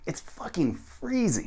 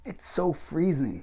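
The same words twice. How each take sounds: First: High, drawn-out "freezing"; emphatic American. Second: Slow, high stretched "so"; strange-sounding example. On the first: Teacher shows the corrected version, emphatic "freezing". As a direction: punch "fucking", stretch "freezing" up high. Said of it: "very emphatic and quite American". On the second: Teacher shows the mistaken version, slow stretched "so". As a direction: draw out "so", then fall away. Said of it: "does at least sound very strange". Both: Shown as a demonstration.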